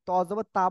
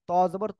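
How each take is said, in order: First: The final vowel is drawn out long. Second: The final vowel is kept short. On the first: The speaker calls it wrong. "অনেকে বলে কি ত জবর তা বলে" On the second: The speaker calls it right. "ত জবর ত হবে"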